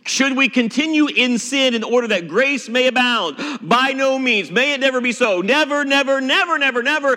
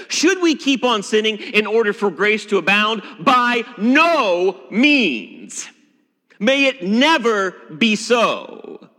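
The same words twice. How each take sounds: First: Never pounded out again and again, higher; preacher stressing never; emphatic Paul. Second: Slow, lingering Apostle Paul; a touch of Paul at his most emphatic; Paul's words. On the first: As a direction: hammer every never home. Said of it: "Paul could not be more emphatic". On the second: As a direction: draw out by no means like the apostle. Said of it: "the Apostle Paul would say". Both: Acted.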